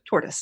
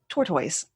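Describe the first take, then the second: First: It is said without the regional English accent. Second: It is said in a regional English accent.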